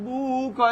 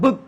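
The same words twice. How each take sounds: First: "বুক" stretched and split, buu-k; "বুক" pulled apart as a wrong example; wrongly broken up. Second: "বুক" short, in one beat; one quick unbroken syllable on "বুক"; said all together. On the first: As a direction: drag out the vowel of "বুক" before the k. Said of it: "আপনি যদি ভেঙে ফেলেন". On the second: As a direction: say "বুক" whole, with no break. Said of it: "একসাথে বলতে হবে". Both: Shown as a demonstration.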